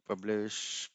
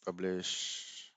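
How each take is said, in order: Both takes have the same delivery.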